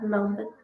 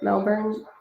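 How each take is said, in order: First: The second syllable is said without an R sound. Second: The second syllable is said like born, R pronounced. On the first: "they don't say the R" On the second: "I want to say Melbourne, Melbourne, but born"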